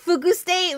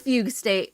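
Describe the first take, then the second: First: The first word sounds like 'fugu', the fish. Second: The first word sounds like 'fugue', the term. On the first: "I'm gonna use Fugu State" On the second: "more than Fugue State"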